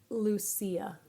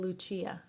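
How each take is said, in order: First: The name is said with an English pronunciation. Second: The name is said with an Italian pronunciation. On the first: "I would say Lucia" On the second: "but if it was Italian"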